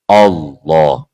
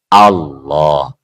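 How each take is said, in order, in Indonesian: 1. Vokal pertama diucapkan dengan bibir membulat dan maju. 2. Vokal pertama diucapkan dengan bibir terbuka, tidak membulat. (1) "nggak boleh monyong. Allah, Allah nggak boleh" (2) "Harus dari A. Allah, Allah. Tuh, mulut saya nggak monyong kan?"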